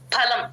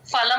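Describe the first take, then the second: First: It begins with a breathy p, lips closed. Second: It begins with an f sound, lips open. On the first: The speaker calls it right. "పాకి మహాప్రాణం పెట్టి" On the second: The speaker calls it wrong. "ఫలం అంటాం, ఫలం అనకూడదు"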